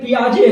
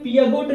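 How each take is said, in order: First: The name ends with a soft 'jay' sound. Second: The name ends with a hard 'got' sound. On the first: The speaker calls it right. "ये पियाजे है" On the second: The speaker calls it wrong. "ये पियागोट जो देख रहे हैं भैया"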